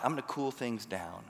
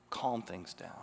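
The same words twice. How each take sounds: First: Said in the usual way. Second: Calm and soft. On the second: Shown as a demonstration. Preacher showing how a thermostat calms things, lower and softer.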